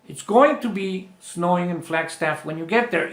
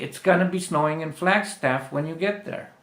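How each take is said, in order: First: Going to is said fully as two words. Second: Going to is reduced and blended into gonna. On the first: "Lo puedes decir con el going to" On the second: "para decirlo de forma natural lo vas a decir así"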